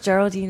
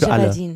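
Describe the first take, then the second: First: The name is pronounced the English way. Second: The name is pronounced the German way.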